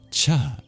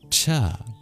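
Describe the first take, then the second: First: The consonant is said with a puff of breath. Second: The same.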